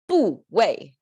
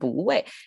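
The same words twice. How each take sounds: First: Both syllables have a falling tone. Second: The first syllable rises, the second falls. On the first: The speaker calls it wrong. "it's another like a two falling tones, like a two stop signs altogether" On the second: The speaker calls it right. "So we can change the tone of bu, keep the original tone of wei"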